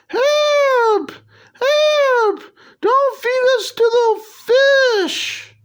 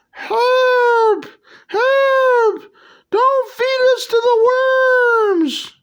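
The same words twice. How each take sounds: First: Very high squeaky cartoon plea; corrected worm voice. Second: Very high squeaky cry for help; worms crying for help. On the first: Corrected take of the worms' plea, very high and squeaky. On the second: Acted. Worms begging the heroes, very high squeaky plea. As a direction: shriek it like tiny cartoon worms. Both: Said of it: "So you gotta say it like".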